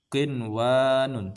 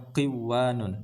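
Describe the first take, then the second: First: The n is pronounced clearly before the w. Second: The n is dropped before the w. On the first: The speaker calls it right. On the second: The speaker calls it wrong.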